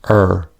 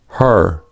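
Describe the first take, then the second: First: The word begins without any h sound. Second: The word begins with an audible h.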